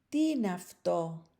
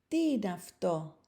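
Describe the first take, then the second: The two takes are said the same way.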